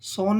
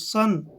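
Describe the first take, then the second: First: The vowel sounds like 'oh'. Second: The vowel sounds like 'uh'. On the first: The speaker calls it wrong. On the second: The speaker calls it right.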